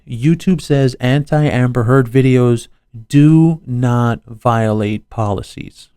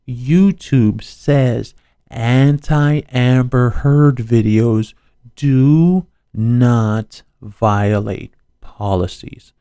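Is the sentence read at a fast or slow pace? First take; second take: fast; slow. First: The sentence is read at a normal pace. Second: The sentence is read at a slower pace.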